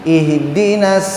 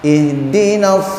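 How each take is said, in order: The two takes are said the same way.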